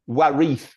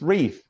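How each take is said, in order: First: The W at the start is pronounced. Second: The W at the start is silent. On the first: The speaker calls it wrong. "It's not warif, is it?" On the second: The speaker calls it right. "It's reef. ... a silent W"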